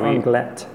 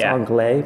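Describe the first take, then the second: First: The place name is said the local way. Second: The place name is said a non-local way. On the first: The speaker calls it right. "but it's Anglet" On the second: The speaker calls it wrong. "We were saying it wrong. We thought it was Anglet"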